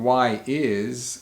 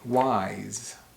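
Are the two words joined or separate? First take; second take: separate; joined. First: Two separate words, said in full. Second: Both words blend into one syllable. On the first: "instead of saying why is" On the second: "we say wise"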